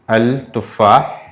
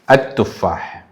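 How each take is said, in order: First: The article is said with a clear l sound. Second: The l is dropped and the t is doubled. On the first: The speaker calls it wrong. "we don't pronounce al tufah" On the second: The speaker calls it right. "we have to pronounce this one like at tufah"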